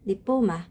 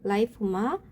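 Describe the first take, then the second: First: The first syllable sounds like 'lee'. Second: The first syllable sounds like 'lie'. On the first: "리포마 또는" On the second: "라이포마라고도 읽을 수 있습니다"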